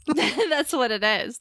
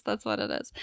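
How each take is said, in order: First: Laughing. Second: Said in the usual way. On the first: Real, not acted. Joking about the Irish girl.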